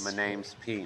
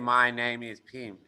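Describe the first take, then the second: First: Name and is are joined into name's. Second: Name and is are said as separate words. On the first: The speaker calls it right. "say it like this. ... It sounds like this" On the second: The speaker calls it wrong. "it's not natural"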